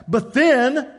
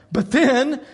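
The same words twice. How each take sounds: First: "then" rising higher; emphatic but then. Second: Said in the usual way. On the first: Shown as a demonstration. Preacher builds suspense for his congregation, "then" rising.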